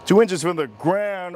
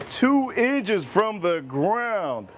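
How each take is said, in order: First: Said in the usual way. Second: Slow and deliberate, every word stretched; slow drawn-out. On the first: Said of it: "repeats the phrase". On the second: Shown as a demonstration. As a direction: drag out the phrase. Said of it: "repeats slowly".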